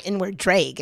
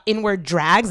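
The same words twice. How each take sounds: First: "drag" with a long ay, as DRAYG; mispronounced drag. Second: Said in the usual way. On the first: Retold or imitated. Imitating Scott's vowel, "drag" said as DRAYG. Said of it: "Scott Jackson pronounces the word dragons like". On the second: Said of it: "They were talking about inward drags".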